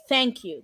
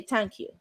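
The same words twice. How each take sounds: First: Said in the usual way. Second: "Thank you" with a hard T, no TH; Irish th as t. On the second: Shown as a demonstration. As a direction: say "Thank" as "tank". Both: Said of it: "they don't pronounce the T H".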